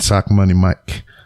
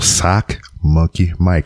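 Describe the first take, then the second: First: The name is said fast and slurred. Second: The name is said slowly and carefully. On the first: The speaker calls it wrong. "Every time I try to say it fast, I say sock money" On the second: The speaker calls it right. "that's why I got to say it slow"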